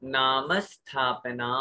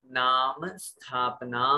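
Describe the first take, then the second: First: Slow, with नाम held long and leaned on before स्थापना; stress on नाम. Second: Slow, नाम drawn out with a small ə after it, then स्थापना; stress on नाम again. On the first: Teacher showing students the stress on नाम, slow and deliberate. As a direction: stretch out नाम, then say स्थापना cleanly and slowly. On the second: Teacher repeating the phrase for students, slow with weight on नाम. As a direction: lean on नाम, keep the pace slow. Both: Shown as a demonstration. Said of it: "पहले वाले अक्षर पे थोड़ा सा जोर दिया जाता है".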